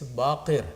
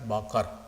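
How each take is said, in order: First: The second syllable has an 'ir' sound. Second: The second syllable has an 'ar' sound. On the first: The speaker calls it right. "it's Baqir" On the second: The speaker calls it wrong. "it's not Baqar"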